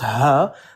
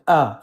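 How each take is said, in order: First: It starts with a breathy h sound. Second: It starts directly with the vowel. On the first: The speaker calls it right. "it's pronounced ha" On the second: The speaker calls it wrong. "They pronounce it ah"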